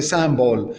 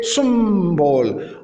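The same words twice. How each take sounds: First: "symbole" the French way, nasal first vowel; French pronunciation. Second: Slow "symbole", vowel between i and u, long m; right pronunciation shown. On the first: Teacher naming the French source word, French pronunciation. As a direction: say "symbole" lower and quicker, as in French. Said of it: "Il provient du français". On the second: Teacher giving the correct way, demonstrated pronunciation. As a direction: hum the m in "symbole", falling at the end. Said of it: "C'est symbole". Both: Shown as a demonstration.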